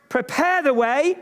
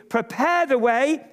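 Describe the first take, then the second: No difference in how they are said.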